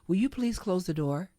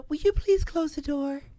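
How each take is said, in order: First: It sounds confident and firm. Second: It sounds timid and hesitant.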